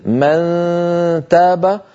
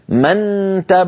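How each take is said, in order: First: The n is hidden as a nasal hum. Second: The n is fully and clearly pronounced. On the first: The speaker calls it right. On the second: The speaker calls it wrong.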